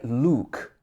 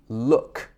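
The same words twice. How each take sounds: First: The vowel is longer, with the tongue further forward. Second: The vowel is very short, with the tongue far back. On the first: The speaker calls it wrong. "don't say look" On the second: The speaker calls it right. "It should be look"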